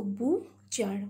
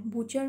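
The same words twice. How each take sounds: First: "butcher" slowly split into bu and char; syllable by syllable. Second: Said in the usual way. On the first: Shown as a demonstration. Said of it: "Bu is one syllable". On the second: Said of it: "Butcher means the person".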